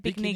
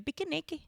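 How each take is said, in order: First: It is said with two syllables. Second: It is said with four syllables. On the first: "They don't say picnic" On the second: "they say pikiniki"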